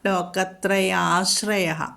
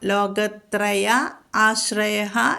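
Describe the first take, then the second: First: The two parts are merged into one word. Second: The two parts are said as separate words.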